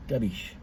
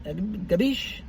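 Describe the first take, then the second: First: Gabish. dropped low and soft with a falling tune; quiet confirming Gabish. falling at the end; answering Gabish. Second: Gabish? asked with a rising, drawn-out tune; mock-Italian Gabish? with an upward lilt; questioning Gabish. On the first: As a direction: answer yourself, Gabish., flat and down. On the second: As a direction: ask it: Gabish?, lifting at the end. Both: Shown as a demonstration.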